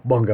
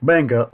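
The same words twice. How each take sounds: First: "manga" said the other way; alternative pronunciation of manga. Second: "manga" said the first of two ways; first pronunciation of manga. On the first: Reviewer corrects himself in passing, alternative pronunciation of "manga". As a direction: offer "manga" with its alternative vowel sound. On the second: Reviewer names Japanese comics, first pronunciation of "manga". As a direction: say "manga" in the first variant offered. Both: Shown as a demonstration. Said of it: "depending on how you pronounce it".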